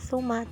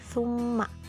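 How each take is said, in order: First: The m sound is short and single. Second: The m sound is held and doubled. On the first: The speaker calls it wrong. "bukan suma" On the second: The speaker calls it right. "tapi summa"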